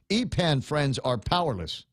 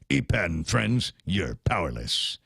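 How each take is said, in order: First: It is read in his normal voice. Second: It is said in a put-on cartoon voice.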